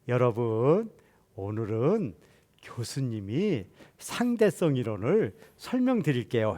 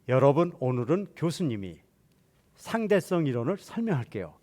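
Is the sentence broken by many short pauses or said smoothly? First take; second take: many pauses; smoothly. First: The sentence is chopped into many short pieces. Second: The sentence flows with few pauses. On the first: It sounds like talking to small children. The speaker calls it wrong. "이건 무슨 얘기야 그래요. 그러고 웃어요" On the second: It sounds natural to adult listeners. The speaker calls it right. "아까와 똑같은 얘기인데 이상하지 않죠?"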